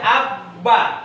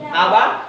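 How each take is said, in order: First: The b sound is held long and doubled. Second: The b sound is short and single. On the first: The speaker calls it right. "karena dia punya tasdid. Sehingga ini dibaca abba" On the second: The speaker calls it wrong. "Apakah ini dibaca aba? Aba? Tidak"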